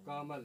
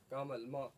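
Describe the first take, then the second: First: कामल said slowly, syllable by syllable, to show the vowel length; stretched syllables. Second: कामल then म said apart, with the म lifted to show it takes time; sounding out म. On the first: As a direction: draw out कामल so the pause between sounds is heard. (कामल को खींचकर, धीरे धीरे बोलें) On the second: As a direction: split off म and let it hang. (म को अलग करके उठाकर बोलें) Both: Shown as a demonstration. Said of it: "इसमें समय लगता है".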